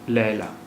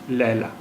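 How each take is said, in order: No difference in how they are said.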